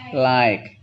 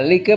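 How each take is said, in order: First: "like" with an eye vowel, one syllable; correct English reading. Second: "like" sounded out as lee-kuh; read as spelled. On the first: Teacher giving the class the reading, "like" as lyke. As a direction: say "like" as lyke, silent final e. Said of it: "bacanya like". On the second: Teacher showing the class the spelling, "like" as lee-kuh. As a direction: say "like" as written, lee-kuh, final e voiced. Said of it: "like bacanya like". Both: Shown as a demonstration.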